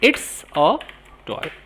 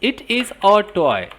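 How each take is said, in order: First: It is shortened into one contracted syllable. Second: It is said as two separate full words. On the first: "इसको short करके ... इसको कह सकता हूं" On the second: "अगर मैं कहता हूं कि इट इज"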